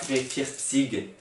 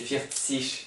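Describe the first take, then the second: First: The ending is said with a hard g sound. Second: The ending is said with a soft ch sound. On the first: The speaker calls it wrong. "c'est pas vierzig" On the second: The speaker calls it right. "c'est vierzig"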